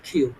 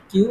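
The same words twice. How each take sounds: First: "কিউ" with a puff after the k, like khiu; aspirated Q. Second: Said in the usual way. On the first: Shown as a demonstration. Teacher corrects the letter Q, "কিউ" said as khiu. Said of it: "এটার উচ্চারণ হবে". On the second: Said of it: "not কিউ".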